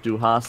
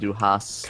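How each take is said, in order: First: The S sound is short. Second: The S sound is drawn out longer. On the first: You have. "which is an S" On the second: You hate. "which is an Esset"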